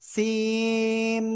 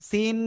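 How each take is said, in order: First: It ends in a nasal m sound. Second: It ends in a clear n sound. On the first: The speaker calls it right. "এভাবে বলবো আমরা" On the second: The speaker calls it wrong. "সিন এভাবে না বলে"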